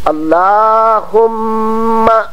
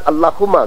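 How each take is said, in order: First: The word is said with lengthened, doubled sounds. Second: The word is said short, without lengthened sounds. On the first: The speaker calls it right. "यहां मीम को दो मरतबा पढ़ना चाहिए" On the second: The speaker calls it wrong. "वो सही नहीं है"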